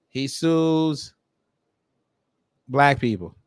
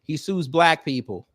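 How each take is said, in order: First: SUES stretched long, a pause, then "black people"; emphatic drawn-out repeat. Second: Said in the usual way. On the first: Real, not acted. Telling viewers what he does, emphatic, with a long pause after "sues".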